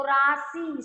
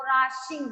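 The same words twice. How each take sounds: First: राशि said very slowly, the शि syllable drawn out and leaned on; stress on शि. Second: Said in the usual way. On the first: Shown as a demonstration. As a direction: stretch राशि and push on शि. (राशि में शि पर ज़ोर, धीरे खींचकर) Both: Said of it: "सी word पे ज्यादा जोर लग रहा है ना".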